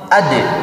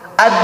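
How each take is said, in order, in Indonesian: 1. D di akhir dilepas dengan letupan. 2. D di akhir berhenti tanpa dilepas sama sekali. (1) "karena ada sifat qalqalah jadi ade" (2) "Aslinya dibaca begini"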